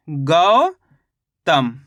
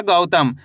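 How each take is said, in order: First: गौतम with a long rising गौ, pause, falling तम; syllable by syllable. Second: Said in the usual way. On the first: Shown as a demonstration. Teacher showing what the syllables make, गौतम stretched in two parts. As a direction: split गौतम slowly into गौ and तम. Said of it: "तो मिलके बन गया ये". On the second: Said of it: "शब्द का उच्चारण सही से सुनना है".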